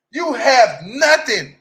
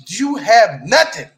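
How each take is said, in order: First: Higher, loud, slow stress on nothing; emphatic repeat. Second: Loud, slow, stress on nothing; emphatic nothing. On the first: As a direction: drive nothing home again, slower. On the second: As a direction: spell it out slowly and loudly. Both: Real, not acted. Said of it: "When I say nothing".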